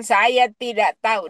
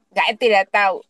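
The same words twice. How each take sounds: First: Said in the usual way. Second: "saya tidak tahu" in Papuan Indonesian dialect. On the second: Retold or imitated. Patient answering the surgeon in Papuan dialect. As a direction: say it the Papuan way, first word cut short. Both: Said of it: "Dengan dialek Papua begitu".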